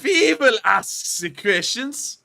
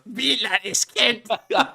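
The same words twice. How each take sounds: First: Put-on loud, slow, high German accent yell. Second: Slow, high, loud mock German yell; German accent. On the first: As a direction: bark it like a German officer. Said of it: "yell, We will ask the questions in a German accent". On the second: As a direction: imitate the botched German accent. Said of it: "All I heard was".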